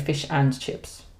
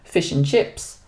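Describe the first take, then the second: First: The word 'and' is said in full. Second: The word 'and' is reduced to 'n'. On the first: The speaker calls it wrong. "we don't say fish and chips. Nobody says that" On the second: The speaker calls it right. "this n we also use for other famous things like fish and chips"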